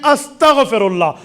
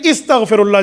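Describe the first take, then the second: First: The word begins with an 'a' vowel. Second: The word begins with an 'i' vowel. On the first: The speaker calls it right. "पढ़ने में अस्तग़फ़िरुल्लाह" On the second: The speaker calls it wrong. "इस्तग़फ़िरुल्लाह जी नहीं"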